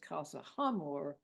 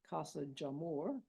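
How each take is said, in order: First: The second word starts with a breathy H sound. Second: The second word starts with an English J sound.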